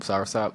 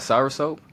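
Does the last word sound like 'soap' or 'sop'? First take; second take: sop; soap. First: The last word has a short 'ah' vowel. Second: The last word has a long 'oh' vowel. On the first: The speaker calls it right. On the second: The speaker calls it wrong.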